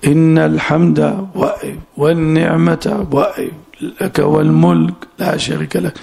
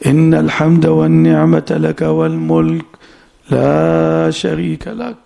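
First: Halting breaks that cut والنعمة off from لك والملك; broken phrasing. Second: Connected recitation from إن to والملك, then a slow drawn-out لا شريك لك; joined phrasing. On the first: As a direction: chop it apart, pausing after الحمد و and after والنعمة و. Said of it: "يقطعون اسم إن عن خبرها". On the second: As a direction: run إن الحمد والنعمة لك والملك together unbroken. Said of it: "كان يصلها". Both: Retold or imitated.

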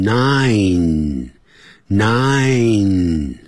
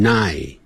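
First: "nine" drawn out slowly, closing on a clear final n; correct NINE. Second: "nine" with the final n dropped, like "nai"; mispronounced NINE. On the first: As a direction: stretch "nine" and finish firmly on the n. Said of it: "因为N I N E后头还有一个N". (慢慢拉长 nine，把尾音 n 念清楚) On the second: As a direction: say "nine" leaving off its last n. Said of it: "很多人念成nine". (把 nine 念成漏掉尾音 n 的错误读法) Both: Shown as a demonstration.

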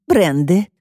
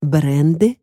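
First: "Бренды" put in as a falling statement; interjected name. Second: "Бренды" echoed with a rising end; questioning echo. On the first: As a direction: slip in "Бренды" to supply the name, voice dropping. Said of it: "вставила Сьюзи". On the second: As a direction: query "Бренды", voice lifting at the end. Detective queries the name just given. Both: A narrator's reading.

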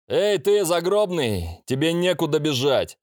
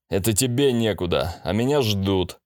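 First: Higher taunting demon voice; fire demon. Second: Said in the usual way. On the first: A narrator's reading. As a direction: taunt him from above, pitched up. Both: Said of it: "прозвучал голос демона".

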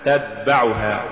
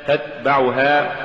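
First: تتبعها sung with a d replacing the t; wrong d for t. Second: تتبعها sung slowly with crisp t; careful تتبعها with voiceless t; correct t sound. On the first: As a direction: demonstrate the error تتبعها as tadba'ha. (تتبعها بالدال بدل التاء خطأً) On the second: (تتبعها بتاء مهموسة) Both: Shown as a demonstration. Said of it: "تقرأ لحنا".

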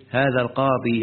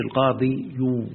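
First: Said in the usual way. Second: القاضي يو with an added يو sound, said slowly; mock-wrong القاضي يو; wrong form demonstrated. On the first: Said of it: "قل إيه". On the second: Shown as a demonstration. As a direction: show the error, stretching القاضي يو. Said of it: "ما تقولش".

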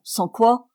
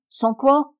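First: Said in the usual way. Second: "Sans quoi?" thrown back higher and louder, threatening; menacing. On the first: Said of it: "Il me demanda". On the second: A narrator's reading. Uncle threatening his nephew, menacing "Sans quoi?". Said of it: "menaçant".

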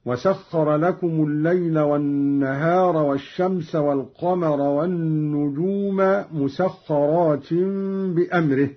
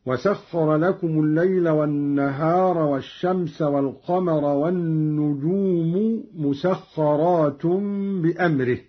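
First: والنجوم recited with a, مسخرات with in; accusative endings. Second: والنجوم and مسخرات with damma; nominative endings. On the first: Teacher demonstrates Qalun's reading, accusative endings. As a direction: put the fatha on النجوم. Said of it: "بنصب النجوم ومسخرات هكذا". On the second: Teacher recites the verse before Qalun's reading. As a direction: end النجوم with u, مسخرات with un. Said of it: "قرأ قالون بنصب النجوم ومسخرات". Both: Shown as a demonstration.

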